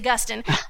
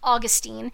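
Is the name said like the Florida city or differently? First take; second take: different; city. First: It sounds unlike the Florida city's name. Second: It sounds like the Florida city's name. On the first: The speaker calls it right. "his name is Augustine" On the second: The speaker calls it wrong. "they all mispronounce his name as Augustine. You know, this ain't a city in Florida"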